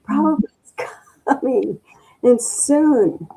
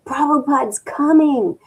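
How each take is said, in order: First: High, breathless joy breaking into a laugh; repeating the girl's joyful cry; excited shout with laugh. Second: High, loud joyful announcement; imitating a girl screaming on the stairs; excited scream. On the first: Retold or imitated. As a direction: keep shouting the news, laughing with delight. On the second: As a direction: call out the great news, thrilled. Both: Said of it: "a girl running up the stairs screaming".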